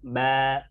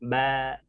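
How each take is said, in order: No difference in how they are said.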